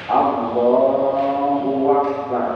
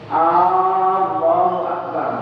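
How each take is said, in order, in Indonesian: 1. Ada bunyi w tambahan di antara kata. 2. Huruf vokal awal pada Allah dipanjangkan. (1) "menambahi huruf waw" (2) "Memanjangkan huruf hamzah pada kata Allah"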